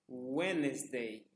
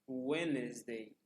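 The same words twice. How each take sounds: No difference in how they are said.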